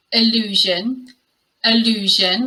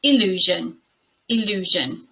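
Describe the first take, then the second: First: Allusion as uh-LOO-zhun; schwa at the beginning. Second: "illusion" as ih-LOO-zhun; lower, careful "illusion" beginning with ih; short i at start. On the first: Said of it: "schwa at the beginning". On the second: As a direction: model "illusion", first sound ih, not uh. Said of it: "And the second word is". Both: Shown as a demonstration.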